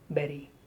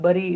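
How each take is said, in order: First: The first vowel sounds like 'eh'. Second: The first vowel sounds like 'uh'. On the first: The speaker calls it right. "it's berry" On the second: The speaker calls it wrong. "It's not bury"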